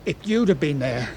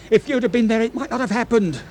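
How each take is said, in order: First: Said in the usual way. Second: Rising anguish. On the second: Acted. Smythe's emotion breaking through.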